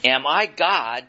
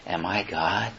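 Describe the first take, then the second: First: The words are spoken loudly, as a shout. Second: The words are spoken quietly, in a hushed voice. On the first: The speaker calls it right. "I'm thinking he's shouting this" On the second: The speaker calls it wrong. "he probably said this in a hushed tone"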